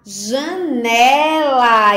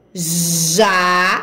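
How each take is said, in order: First: "Janela" joined up in one slow, stretched word; whole word, drawn out. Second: "Janela" broken into JA, NE, LA with long pauses; syllable by syllable. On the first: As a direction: blend "Janela" together, lengthening the vowels without pauses. ("Janela" dito inteiro, devagar, com as sílabas esticadas e ligadas) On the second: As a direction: sound out "Janela" slowly, one separate syllable at a time. ("Janela" lido sílaba por sílaba, com pausas entre JA, NE e LA) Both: Shown as a demonstration. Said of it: "Vamos fazer a leitura?".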